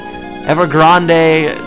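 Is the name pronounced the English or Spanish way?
Spanish. The name is pronounced with Spanish sounds. The speaker calls it wrong. "it's nice, but it just doesn't sound right"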